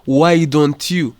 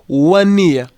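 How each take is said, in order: First: Each word is said fully and separately. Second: The words are reduced and run together. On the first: "ntabwo ari kuvuga ngo why don't you?" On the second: "in first speech we say one year instead of saying why don't you?"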